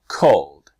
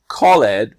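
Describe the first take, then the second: First: The ending adds no extra syllable. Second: The ending is said as an extra syllable. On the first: The speaker calls it right. "the E just disappears" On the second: The speaker calls it wrong. "not called"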